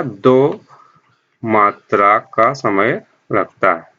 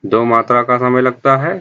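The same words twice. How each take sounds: First: मात्रा का समय लगता है said slowly, word by word; slow down to drive the point home; slow emphasis. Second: Said in the usual way. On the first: Shown as a demonstration. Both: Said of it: "दुगुना समय लगता है".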